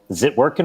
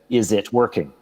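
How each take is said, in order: First: The words are blended together into one slurred chunk. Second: Every syllable is clearly and separately enunciated.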